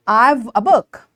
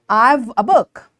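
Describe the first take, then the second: First: 'I have' is contracted into one syllable. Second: 'I have' is contracted into one syllable.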